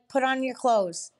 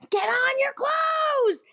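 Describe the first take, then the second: First: It is said at normal volume. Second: It is screamed loudly.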